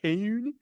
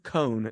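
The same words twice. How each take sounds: First: The name is said in an odd, unusual way. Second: The name sounds exactly like the word cone. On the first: The speaker calls it wrong. "you want to say it in a weird way" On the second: The speaker calls it right. "but it's just cone. It's like ice cream cone"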